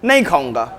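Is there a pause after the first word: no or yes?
no. The two words run together without a pause. The person refuses to eat. "इसका मतलब क्या पता चला, खाना नहीं खाएगा"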